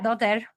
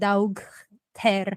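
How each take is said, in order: First: The word is said in its ordinary spoken form. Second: The word is sounded out following its spelling. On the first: Listeners would understand it. The speaker calls it right. "you can say daughter and people will understand you" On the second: Listeners would not understand it. The speaker calls it wrong. "you pronounce it like Daug Ter, like nobody's gonna understand you"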